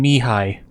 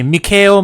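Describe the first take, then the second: First: The name ends with no L sound. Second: The name ends with an audible L sound. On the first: The speaker calls it right. "You pronounce the name Mihai. The L is silent" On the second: The speaker calls it wrong. "that is not how you pronounce that name"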